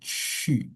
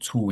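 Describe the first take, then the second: First: The vowel is ee with rounded lips. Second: The vowel is a plain oo sound. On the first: The speaker calls it right. "tapi chi. Ngonyong mulutnya" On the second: The speaker calls it wrong. "jangan jangan cu ya"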